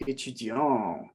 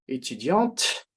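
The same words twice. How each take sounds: First: "étudiant" slow, ending in a nasal vowel with no T sound; masculine, no T. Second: "étudiante" slow, with a clearly audible T at the end; feminine, T sounded. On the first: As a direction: say "étudiant" slowly and drop the T. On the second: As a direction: say "étudiante" slowly and pronounce the final T. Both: Shown as a demonstration. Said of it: "so we have étudiante".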